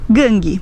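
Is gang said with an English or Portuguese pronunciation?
Portuguese. It is said with Brazilian Portuguese pronunciation. "nós diremos"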